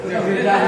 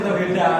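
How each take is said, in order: Both takes have the same delivery.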